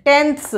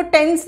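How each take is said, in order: First: "टेंथ्स" with a th before the final s; correct ths ending. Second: "टेंस" ending in a plain s, no th; wrong pronunciation. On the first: Teacher showing fifth class the spelling, "टेंथ्स" with ths ending. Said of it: "टी एच एस". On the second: Teacher warning fifth class about spelling, wrong "टेंस" without th. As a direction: say "टेंस" with the th left out. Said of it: "इसको टेंस नहीं बोलेंगे". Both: Shown as a demonstration.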